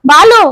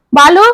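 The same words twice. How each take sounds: First: Loud, high searching call; raised-voice hail through the house; louder calling. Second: First searching call, higher and rising; questioning call, lifted at the end. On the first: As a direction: call out urgently, pitch rising sharply. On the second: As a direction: call a name into the house. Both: A narrator's reading. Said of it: "என்று அழைத்து கொண்டே".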